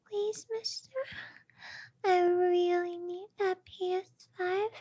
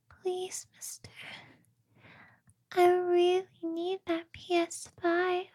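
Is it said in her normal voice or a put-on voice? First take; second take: put-on; normal. First: It is said in a new put-on voice. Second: It is said in her normal voice.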